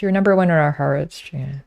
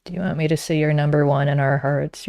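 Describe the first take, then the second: First: Playful over-the-top affection; mock sweet declaration. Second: Said in the usual way. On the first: Shown as a demonstration. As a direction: sell it like a cheesy compliment.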